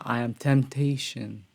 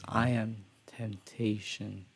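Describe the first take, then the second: First: The phrase is said loudly. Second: The phrase is said very quietly. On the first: The speaker calls it wrong. "And it's not" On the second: The speaker calls it right. "The way he phrases, ... He does it very quiet"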